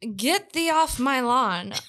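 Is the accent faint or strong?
faint. It is said with a faint put-on accent. "you had a vague accent when you said that"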